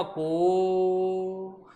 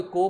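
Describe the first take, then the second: First: को with the vowel held three times as long; drawn-out vowel. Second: Said in the usual way. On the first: Shown as a demonstration. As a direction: hold the o in को like a mantra. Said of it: "तीन गुना समय लगाना को के उच्चारण में". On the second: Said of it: "जबकि इसका उच्चारण क्या होगा".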